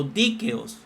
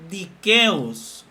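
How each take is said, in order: First: Dikeos stressed on DI: DI-ke-os; stress on first syllable. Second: Dikeos slowly, stressed on KE: di-KE-os; stress on second syllable. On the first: Teacher offering the alternative reading of a Greek word, dikeos stressed DI-ke-os. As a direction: hit the opening of dikeos, DI-ke-os. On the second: Teacher offering one reading of a Greek word, dikeos stressed di-KE-os. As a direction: lean on the middle of dikeos, di-KE-os. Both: Shown as a demonstration. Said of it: "dikeos o dikeos".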